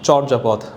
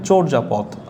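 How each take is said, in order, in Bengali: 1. এই শব্দের একটি প্রচলিত কথ্য উচ্চারণ আছে। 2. এই শব্দের একটি প্রমিত, সতর্ক উচ্চারণ আছে। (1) "এটাকে অনেকেই বলেন চর্যাপদ" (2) "সঠিক উচ্চারণ হচ্ছে বা শুদ্ধ উচ্চারণ হচ্ছে"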